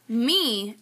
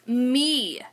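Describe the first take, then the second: First: Said in the usual way. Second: "me" drawn out with extra stress. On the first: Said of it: "instead of me, it becomes me". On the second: Shown as a demonstration. Teacher showing the extra E, "me" stressed. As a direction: lean hard on "me". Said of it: "it equals extra stress on the word".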